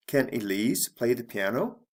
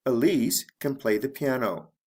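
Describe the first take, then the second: First: "piano" climbing at the end; rising question intonation. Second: Said in the usual way. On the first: Shown as a demonstration. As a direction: ask it with the voice going up on "piano". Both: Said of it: "my intonation goes up".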